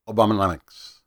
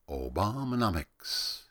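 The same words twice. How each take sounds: First: The word is said quickly. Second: The word is said slowly. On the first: "It sounds good if you say it fast" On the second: "or if you say it slow"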